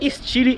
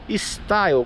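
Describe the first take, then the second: First: The word is pronounced the non-English way. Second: The word is pronounced the English way. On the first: The speaker calls it right. "a própria Peugeot diz que é Stile" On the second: The speaker calls it wrong. "como seria a palavra em inglês"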